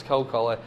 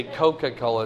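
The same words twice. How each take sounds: First: Coca-Cola run together as Coke-Cola; slurred Coca-Cola. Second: Said in the usual way. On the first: Shown as a demonstration. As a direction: drop the middle syllable in Coca-Cola. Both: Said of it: "everything's kinda slurred together".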